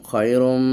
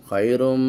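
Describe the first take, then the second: The two takes are said the same way.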